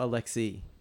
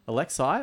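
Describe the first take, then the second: First: The name ends with an 'ee' sound. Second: The name ends with an 'ay' sound. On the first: "Alexei or Alexi?" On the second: "Alexei or Alexi?"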